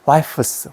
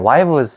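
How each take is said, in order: First: The consonant before the s is voiceless. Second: The consonant before the s is voiced. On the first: The speaker calls it wrong. "스가 붙으면 발음이 안 되는 거야" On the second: The speaker calls it right. "무성음을 유성으로 바꾸는 거야 ... 훨씬 발음이 좋다고"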